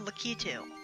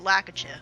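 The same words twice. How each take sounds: First: The word ends with a plain 'too' sound. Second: The word ends with a 'choo' sound. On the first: "Apparently that's how it's pronounced" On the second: "I like to say Ch at the end instead of ew"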